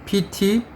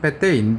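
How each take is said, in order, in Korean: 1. 글자는 영어식으로 읽어요, pee-tee. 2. 글자는 인도네시아식으로 읽어요, peh-teh.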